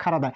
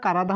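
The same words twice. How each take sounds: First: খারাদা with aspirated KH in place of K; exceptional pronunciation. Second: কারাদা with an unaspirated K; hard "ka" to begin কারাদা; regular pronunciation. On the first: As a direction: release air on the first sound of খারাদা. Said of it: "এই উচ্চারণটা হয়ে যাবে খারাদা". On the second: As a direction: say কারাদা as ka-ra-da, no air after K. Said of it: "এই উচ্চারণটা কারাদা হয়". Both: Shown as a demonstration.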